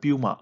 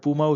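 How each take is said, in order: First: The word begins with a 'pyoo' sound. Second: The word begins with a plain 'poo' sound. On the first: The speaker calls it right. "উচ্চারণ হয় পিউমা" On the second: The speaker calls it wrong. "এটা পুমা উচ্চারণ নয়"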